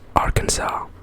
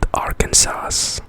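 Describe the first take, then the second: First: The final s is silent, ending in saw. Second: The final s is pronounced, as spelled. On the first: The speaker calls it right. "but it's pronounced Arkansas" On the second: The speaker calls it wrong. "it's spelled Arkansas"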